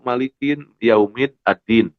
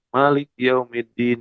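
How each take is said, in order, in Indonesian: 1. Kata pertama tetap mengucapkan vokal akhirnya. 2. Kata pertama menghilangkan vokal akhirnya. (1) "dia tidak tahu" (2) "Tapi dia baca"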